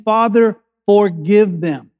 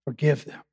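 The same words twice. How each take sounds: First: Forgive drawn out slow and weighty; slow solemn plea. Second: Forgive them dropped much softer and lower; hushed forgive. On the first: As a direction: lean hard on forgive, unhurried. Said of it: "He's saying". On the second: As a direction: let Forgive barely land, softer. Sermon restates Jesus' words. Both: Shown as a demonstration.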